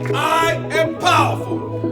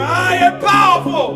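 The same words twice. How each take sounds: First: It is said at a normal volume. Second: It is said more loudly.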